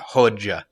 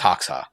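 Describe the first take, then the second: First: The middle consonant sounds like dj. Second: The middle consonant sounds like ks. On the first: The speaker calls it right. "the pronunciation guide I saw had a D in front of the J" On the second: The speaker calls it wrong. "I used to think it was Hoxha because uh, that's how it's spelled"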